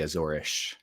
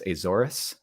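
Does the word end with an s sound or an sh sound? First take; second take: sh sound; s sound. First: The word ends with an sh sound. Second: The word ends with an s sound. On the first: "in Portuguese you would say Azorish. They say ish for their s's" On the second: "technically, it's pronounced Azores"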